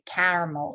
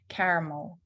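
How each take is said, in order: First: The first vowel is a broad, open A. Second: The first vowel is a narrower, softer A. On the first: The speaker calls it wrong. "We don't say caramel" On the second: The speaker calls it right. "It's more of an A sound"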